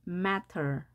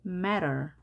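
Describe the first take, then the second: First: Matter with a fully released T; crisp T. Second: Matter with T softened to an R-like flap; American flapped T. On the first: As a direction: sound the T clearly in matter. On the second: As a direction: say matter American-style, like merrer. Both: Shown as a demonstration. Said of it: "미국식 발음은 matter".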